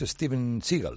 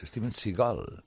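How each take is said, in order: First: Seagal is stressed on the first syllable. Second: Seagal is stressed on the last syllable. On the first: The speaker calls it wrong. "no es Steven Seagal" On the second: The speaker calls it right. "es Steven Seagal"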